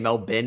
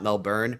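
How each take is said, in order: First: The final syllable is short and reduced. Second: The final syllable is full, like 'born'. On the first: The speaker calls it right. "I've learned now to probably say Melbourne" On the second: The speaker calls it wrong. "and not Melbourne"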